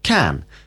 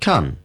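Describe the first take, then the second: First: It is said slowly with a full vowel. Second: It is said quickly with a reduced vowel.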